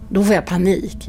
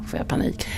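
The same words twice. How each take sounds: First: Said in the usual way. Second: Hushed whisper of the panic. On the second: Real, not acted. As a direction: drop to a breathy whisper. Repeats the panic line. (viskande, som att minnas paniken)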